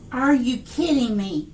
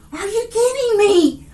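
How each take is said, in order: First: Said in the usual way. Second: Higher, louder, truly thrilled; can't believe what she's seeing; excited disbelief. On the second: Real, not acted. Reader stunned by what Spirit shows, excited disbelief. Reacting to a card reveal.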